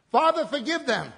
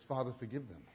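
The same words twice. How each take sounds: First: Higher and louder, ringing cry; loud preaching of Jesus' prayer; proclaimed aloud. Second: Softer, gentle hushed prayer; quiet tender prayer from the cross. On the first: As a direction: cry it out to heaven. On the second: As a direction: breathe it quietly like a dying man's plea. Preacher quotes Jesus' prayer softly. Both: Acted.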